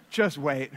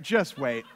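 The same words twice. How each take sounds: First: Knowing laughing warning. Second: Laughing warning. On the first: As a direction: chuckle through "Just wait". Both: Real, not acted. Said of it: "repeated knowing line".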